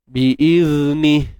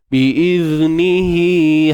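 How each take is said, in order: First: The word ends sharply on 'ni' with nothing after. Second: The word ends with a 'hi' held two beats. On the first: The reading stops at this word. "kalau kita berhenti, uh, dia bunyi biizni, itu saja" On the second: The reading continues into the next word. "itu kalau sam sambung, jadilah hi dua harakat"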